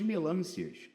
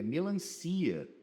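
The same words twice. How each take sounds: First: Melâncias stressed on LÂN, short unstressed final ia; wrong stress. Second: Melancia slowed, stressed on the CI; correct stress. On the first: Teacher mocking a misplaced accent mark, stress on LÂN. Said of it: "Olha que doideira". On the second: Teacher correcting the misplaced accent, stress on CI. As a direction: put the weight of melancia on CI. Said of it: "Não tem acento". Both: Shown as a demonstration.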